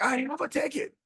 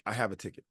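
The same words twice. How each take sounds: First: Much higher-pitched imitation of an upset woman; mock squeal of protest at normal volume; shrill retort. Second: Said in the usual way. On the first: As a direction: imitate her insisting, pitched way up. Retold upset passenger insisting she has one.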